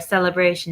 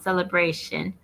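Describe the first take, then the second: First: The word is pronounced the English way. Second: The word is pronounced the Spanish way.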